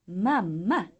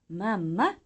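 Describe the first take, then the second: No difference in how they are said.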